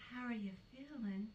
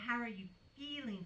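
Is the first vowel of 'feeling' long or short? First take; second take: short; long. First: The first vowel of 'feeling' is short. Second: The first vowel of 'feeling' is long. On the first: The speaker sounds down-to-earth. "that doesn't sound too cunty" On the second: The speaker sounds stuck-up. "That sounds a little cunty"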